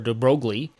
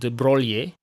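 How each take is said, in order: First: The name is said with English pronunciation. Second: The name is said with Italian pronunciation. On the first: "In English, he's typically called" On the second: "in Italian will be pronounced something like"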